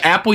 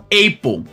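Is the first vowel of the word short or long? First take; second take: short; long. First: The first vowel is short. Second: The first vowel is long. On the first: The speaker calls it right. "você pronuncia Apple" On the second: The speaker calls it wrong. "e não Apple"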